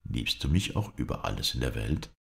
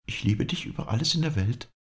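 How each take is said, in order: First: A man's low, tender question; softly asking his beloved; lover's question. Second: Higher, lightly voiced lady; the lady's reply pitched higher; lady's answer. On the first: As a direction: ask it as the pleading lover. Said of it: "sagte der Florentiner". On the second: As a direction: answer as the lady, easily promising. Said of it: "antwortete sie". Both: A narrator's reading.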